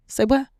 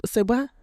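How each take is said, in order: First: Higher, louder "Say what?", really pushed; louder disbelief. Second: High rising "Say what?" in disbelief; incredulous. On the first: Speaker to her audience, repeating the question, louder disbelief. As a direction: push the disbelief further and louder. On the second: Speaker to her audience, questioning a harmful belief, incredulous. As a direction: say it like you can't believe your ears. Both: Real, not acted.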